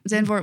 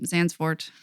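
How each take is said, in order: First: The name is said without an s sound mid-word. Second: The name is said with an s sound mid-word. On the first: The speaker calls it right. "there is no extra S" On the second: The speaker calls it wrong. "I always want to call it um, Zandsfort"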